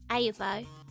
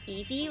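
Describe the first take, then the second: First: It is said as a longer Dutch-style reading. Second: It is said as two short syllables, ee-vee. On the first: This is how a Dutch reader would read the spelling. "if you look at this with a Dutch brain" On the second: This is the usual reading of the name. "how you might pronounce that's like Eevee"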